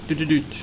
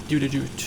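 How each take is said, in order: Both takes have the same delivery.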